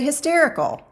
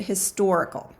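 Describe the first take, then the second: First: "hysterical" with clear stress on -ster-; saying "hysterical" as the word not meant; hysterical, said as the wrong word. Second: "historical" with clear stress on -stor-; saying "historical" as the word meant; historical, said as the right word. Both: Shown as a demonstration. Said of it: "we didn't say hysterical".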